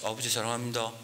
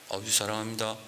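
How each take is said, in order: No difference in how they are said.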